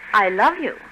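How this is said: It is said warmly, with emotion.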